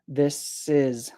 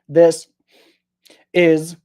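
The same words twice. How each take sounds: First: The two words run together without a stop. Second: The two words are separated by a stop. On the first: The speaker calls it right. "I'm saying this is, sis" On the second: The speaker calls it wrong. "I'm not saying this is"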